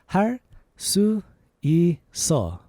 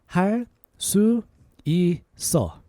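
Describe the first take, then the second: Both takes have the same delivery.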